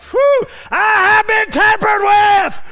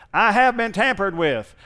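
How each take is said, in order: First: High, slow, full-force shout of "I have been tampered with"; ecstatic shout. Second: Car alarm voice. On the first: Acted. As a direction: cry it out in triumph. Preacher's climax shout. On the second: Retold or imitated. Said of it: "a real tinny sounding voice going".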